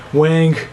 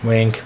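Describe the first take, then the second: First: WINK said higher and drawn a little longer; higher spoken wink. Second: Said in the usual way. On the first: Acted. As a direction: pitch "Wink" up playfully. Repeated wink, pitched up.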